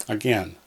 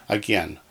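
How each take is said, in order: No difference in how they are said.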